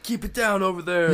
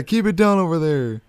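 First: High, loud fed-up neighbor; cranky neighbor. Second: Cranky neighbor. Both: Retold or imitated. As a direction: shout it across the yard, annoyed. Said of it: "They're like".

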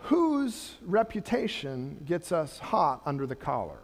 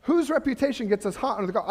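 First: A quiet, searching question to the congregation; slow and softer, weighing each word. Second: Fast and direct, tossed straight out; rapid challenge to the room; quick, pointed question. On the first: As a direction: let it sink in, slow and soft. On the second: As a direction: rattle the question off briskly. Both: Shown as a demonstration.

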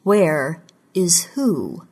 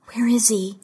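First: Slow, measured question in a level voice; smooth, controlled. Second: Higher-pitched, pressing question; demanding. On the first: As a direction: answer the demand slowly, giving nothing away. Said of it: "His voice was smooth and controlled". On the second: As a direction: demand an answer from a captor. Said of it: "she demanded". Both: A narrator's reading.

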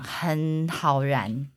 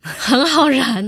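First: Very slow, softer, drawn out; slow emphatic. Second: Very slow, higher, louder echo; echoing mock. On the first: Real, not acted. Telling friends his temper ignites easily, very slowly. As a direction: savor each word. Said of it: "我跟你讲". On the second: Host echoes his line back, slow and higher. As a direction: repeat it back teasingly.

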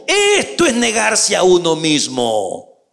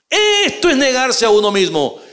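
First: Esto es negarse a uno mismo spoken slowly, leaning on esto; slow and deliberate. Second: Esto punched higher, whole line at normal speed; emphatic repeat. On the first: Pastor spelling it out to his listeners, slow and deliberate. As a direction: lay it out slowly, word by word. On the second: Pastor repeating the line for emphasis, emphatic. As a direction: say it again with force on esto. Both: Shown as a demonstration.

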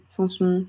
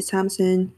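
First: "Samsung" Frenchified, both endings nasal and silent n; French-style pronunciation. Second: "Samsung" English-style, plain m and sounded n; English-style pronunciation. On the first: Podcaster trying the French way, "Samsung" as "san-son". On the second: Unsure podcaster trying out the brand name, "Samsung" as "SAM-sonn". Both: Shown as a demonstration. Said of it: "Je sais pas comment on dit".

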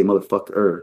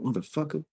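First: "motherfucker" with both -er endings fully sounded; corny, fully pronounced. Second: "motherfucker" softer, loose ending, lifted at the end; with funky sting. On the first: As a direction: say "motherfucker" square, every R in place. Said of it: "You can't say motherfucker. It sounds kinda corny". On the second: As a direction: slide through "motherfucker" with a little funk, easing off the R. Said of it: "you got a little funk". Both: Shown as a demonstration.

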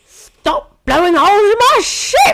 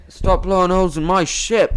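First: High, loud indignant pirate yell; Jack Sparrow impression. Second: A weak stab at Jack's voice; half-hearted pirate captain voice; bad Jack Sparrow. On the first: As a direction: shriek it like an outraged old Englishman. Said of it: "he sounds like that". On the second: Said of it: "Oh, that's terrible".

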